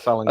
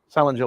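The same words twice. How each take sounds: First: The g is hard, as in finger. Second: The g is soft, as in ginger. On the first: The speaker calls it wrong. "not Salinger like finger or linger" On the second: The speaker calls it right. "Salinger like ginger"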